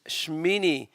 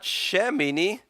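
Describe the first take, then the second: First: The sh slides straight into the m. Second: A short vowel is heard between sh and m. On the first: The speaker calls it right. "you slide over them for the next syllable" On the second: The speaker calls it wrong. "It's not Shemini"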